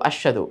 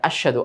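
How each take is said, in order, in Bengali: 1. শ-এর পরের হ ধ্বনিটি প্রায় শোনাই যায় না। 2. শ-এর পরের হ ধ্বনিটি প্রায় শোনাই যায় না।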